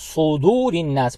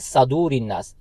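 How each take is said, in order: First: The first vowel is a rounded u sound. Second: The first vowel is an open a sound. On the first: The speaker calls it right. "सौद के ऊपर पेश है, तो हम इसको सुदूर इन्नास पढ़ेंगे" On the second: The speaker calls it wrong. "वो पढ़ते हैं सदूर इन्नास, ... जो कि गलत है"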